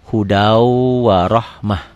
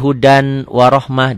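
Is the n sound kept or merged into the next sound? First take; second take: merged; kept. First: The n sound merges into the following w. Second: The n sound is pronounced clearly. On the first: This is how it is actually recited. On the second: This is how it is written.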